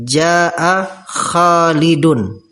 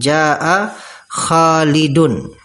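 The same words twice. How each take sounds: First: The name ends with a clear n sound. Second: The name ends with a clear n sound.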